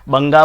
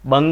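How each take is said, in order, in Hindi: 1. शब्द के अंत में जोड़ा गया 'a' स्वर है। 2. शब्द व्यंजन पर खत्म होता है, उसके बाद कोई स्वर नहीं है। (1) "बंगा बोलते हैं" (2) "बंग है"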